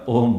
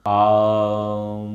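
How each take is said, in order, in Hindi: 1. यह शब्द ओ स्वर से शुरू होता है। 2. यह शब्द लंबे आ स्वर से शुरू होता है। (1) "आम मत बोलो भैया ... ओम बोलो।" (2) "बोले ओम नहीं है, आ है, आम।"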